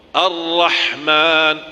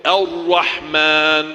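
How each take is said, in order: First: Slow Ar-Rahman with moving lips; wrong Ar-Rahman. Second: Slow Ar-Rahman with still lips; correct Ar-Rahman. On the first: Teacher showing forbidden lip movement. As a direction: stretch Ar-Rahman with rounded lips. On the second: Teacher showing the right way. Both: Shown as a demonstration. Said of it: "tidak boleh".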